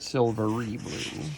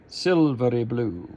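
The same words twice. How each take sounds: First: The R in silvery is a regular R. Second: The R in silvery is a quick flip. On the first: The speaker calls it wrong. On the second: The speaker calls it right. "Flip the R in silvery"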